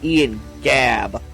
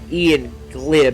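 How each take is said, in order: First: The surname is said to sound like 'Gabb'. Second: The surname is said to sound like 'Glib'. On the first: The speaker calls it right. "It's Ian Gabb" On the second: The speaker calls it wrong. "I mispronounced his last name. I pronounced it Ian Glib"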